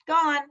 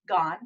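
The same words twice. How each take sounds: First: "gone." said higher and louder, falling; stress on gone. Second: Said in the usual way. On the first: Shown as a demonstration. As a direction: punch "gone." up high, then drop. Moment vanishing, emphatic take.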